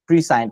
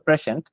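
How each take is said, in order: First: It is split into pre-sci-ent with separate parts. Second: It is said smoothly with an 'sh' sound. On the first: The word is broken into its parts. The speaker calls it wrong. "জিনিসটাকে ভেঙে দেখালাম" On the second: This is how the word is really pronounced. The speaker calls it right. "শব্দটার উচ্চারণ হচ্ছে প্রেশেন্ট"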